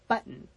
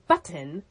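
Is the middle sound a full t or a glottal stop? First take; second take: glottal stop; full t. First: The middle consonant is a glottal stop. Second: The middle consonant is a clear t sound. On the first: The speaker calls it right. "That in between those two sounds is a glottal stop" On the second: The speaker calls it wrong. "you don't say button in America"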